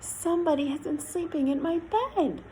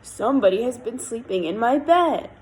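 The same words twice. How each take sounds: First: The voice is soft, quiet and gentle. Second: The voice is big, deep and growly. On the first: "in her quiet, gentle voice" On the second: "in his great big valley, growly voice"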